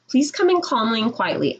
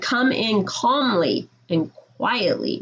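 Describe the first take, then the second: First: Said in the usual way. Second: Slow emphatic repeat. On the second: Shown as a demonstration. Teacher repeating a rule to rowdy classes, slow and emphatic. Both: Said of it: "something I need to stress".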